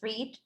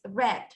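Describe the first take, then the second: First: The vowel is long, rhyming with 'need'. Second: The vowel is short, like the color red. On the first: The action happens in the present. "in present it's read" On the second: The action happened in the past. "in past is read as the color"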